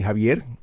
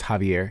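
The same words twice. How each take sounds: First: The name is said with a Spanish accent. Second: The name is said with an American accent.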